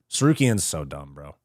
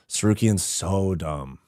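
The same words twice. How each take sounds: First: Said in the usual way. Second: Slow, low, with "so" drawn out; stress on so. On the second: Real, not acted. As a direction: stretch "so" for emphasis. Repeats verdict, stretching the word so.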